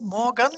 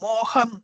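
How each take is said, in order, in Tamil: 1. நடுவிலுள்ள மெய்யெழுத்து "g" ஒலி. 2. நடுவிலுள்ள மெய்யெழுத்து "h" ஒலி. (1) "மோகன் இல்லை" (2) "அது மோகன்"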